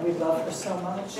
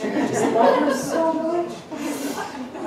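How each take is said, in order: First: Said in the usual way. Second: Mock gushing, much higher and very slow with a laugh. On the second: Shown as a demonstration. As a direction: stretch it out in exaggerated adoration, laughing. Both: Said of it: "to say something other than".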